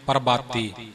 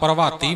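First: The middle consonant is a plain b sound. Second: The middle consonant is a v sound. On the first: "ਭੱਬੇ ਦੇ ਉਚਾਰਨ ਨੂੰ ਬਿਲਕੁਲ ਹੀ ਬੱਬੇ ਵਿੱਚ ਤਬਦੀਲ ਕਰ ਦਿੰਦੇ ਨੇ" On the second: "ਕਈਆਂ ਦੇ ਮੂੰਹ ਵਵਾ ਚੜਿਆ ਹੁੰਦਾ ਹੈ"

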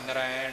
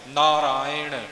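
First: The middle is a short 'ai' sound. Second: The middle is a long 'aa' then 'i'. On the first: The speaker calls it wrong. "ਸਿੱਧੇ ਤੌਰ ਤੇ ਕਈ ਨਾਰਾਇਣ ਹੀ ਬੋਲ ਜਾਂਦੇ ਨੇ" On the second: The speaker calls it right. "ਰਾਰੇ ਨੂੰ ਕੰਨਾ ਈੜੀ ਸਿਹਾਰੀ ਹੈ, ... ਇਉਂ ਉਚਾਰਨ ਹੋਣਗੇ ਜੀ"

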